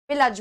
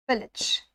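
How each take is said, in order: First: पिलज with a full "a" in the second syllable, pi-laj; spelling-based mispronunciation. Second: पिलज with a short "i" in the second syllable, "PIL-ij"; correct pronunciation. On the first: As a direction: say पिलज as spelt, with a clear "a". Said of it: "ए आ रहा है पूरा का पूरा". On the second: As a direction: say पिलज as "pillij", ending short and light. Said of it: "इसका जो pronunciation है वो है पिलज". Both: Shown as a demonstration.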